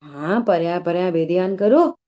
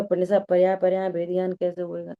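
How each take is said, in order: First: Louder affirming instruction, rising at the end; retold teacher's reply. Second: Quick, low-pitched asking; retold question. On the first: Pandit sahab replying to his questioner, retold emphatic instruction. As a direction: answer firmly, lifting the last word. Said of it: "तो पंडित साहब बोले कि". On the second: Student asking Pandit sahab how, retold quick question. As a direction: put the question in one fast run. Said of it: "तो पंडित साहब से पूछा".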